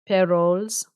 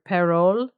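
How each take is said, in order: First: The name ends with an s sound. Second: The name ends without an s sound.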